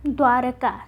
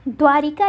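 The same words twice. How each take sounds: First: द्वारका with no i after r; द्वारका, bare "r" in the middle; correct form shown. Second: द्वारिका with an i after r; द्वारिका, middle syllable "ri"; wrong form shown. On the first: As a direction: say द्वारका as dwa-ra-ka. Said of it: "र में कोई मात्रा नहीं". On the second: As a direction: say द्वारिका as dwa-ri-ka. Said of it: "जबकि द्वारिका न लिख के". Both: Shown as a demonstration.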